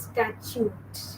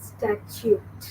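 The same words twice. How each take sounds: First: "statute" said slowly as STAT-yoot; "statute" ending in a clear t; careful pronunciation. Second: "Statute" whispered as STAT-yoot; "Statute" breathed out softly, final t clear; whispered model. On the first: Teacher correcting students who say "statute" wrong. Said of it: "It is pronounced as statute". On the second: Teacher whispering "Statute" for class to repeat. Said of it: "How do you pronounce it?". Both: Shown as a demonstration.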